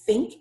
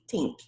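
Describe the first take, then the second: First: It begins with a soft, breathy th sound. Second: It begins with a hard t sound. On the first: The speaker calls it right. "instead of saying think" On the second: The speaker calls it wrong. "substitute in the first one with the letter T"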